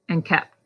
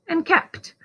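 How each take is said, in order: First: The final consonant is swallowed and barely heard. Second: The final consonant is crisp and clearly heard. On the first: The speaker calls it wrong. "we often kind of swallow that last sound" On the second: The speaker calls it right. "instead of"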